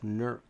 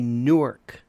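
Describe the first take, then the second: First: The name is squeezed into one short syllable. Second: The name is said in full, with two syllables.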